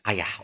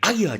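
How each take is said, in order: First: It sounds mild and grudging. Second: It sounds strong and dismayed. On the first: The speaker agrees unwillingly. "That means all right then" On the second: Something bad has happened. "it depends on how strong you want to say it"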